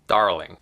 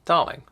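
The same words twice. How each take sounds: First: The r sound is pronounced. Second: The r sound is silent.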